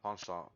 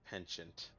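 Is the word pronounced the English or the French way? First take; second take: French; English. First: The word is given a French pronunciation. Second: The word is given an English pronunciation. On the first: The speaker calls it right. "like because it's French or something" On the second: The speaker calls it wrong. "I've heard people pronounce it"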